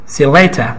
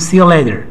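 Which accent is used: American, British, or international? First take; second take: British; American. First: It is said in a British accent, mouth sounding full. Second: It is said in an American accent, t like d. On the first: "یکیش هم بریتیشه... انگار سیب زمینی تو دهنشون" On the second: "یکیش آمریکاییه میگیم, یعنی ترمن ده میگیم"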